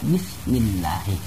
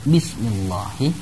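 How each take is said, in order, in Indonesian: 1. Bunyi L pada Allah terdengar tipis dan ringan. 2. Bunyi L pada Allah terdengar tebal dan berat. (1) "harus dibaca ... dibaca tarkik atau tipis" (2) "tidak dibaca"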